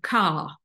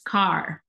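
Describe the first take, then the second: First: The final R sound is left out. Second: The final R sound is clearly pronounced. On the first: It sounds British. "e não pronunciar esse R" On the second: It sounds American. "você pronuncia esse er"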